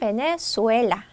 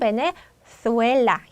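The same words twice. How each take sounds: First: The z is said like a plain s. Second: The z is said with the tongue between the teeth. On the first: "중남미 사람들은" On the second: "스페인 사람들은 베네수엘라 혀를 물고 하겠죠"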